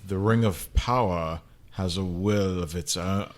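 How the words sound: The voice is low and manly.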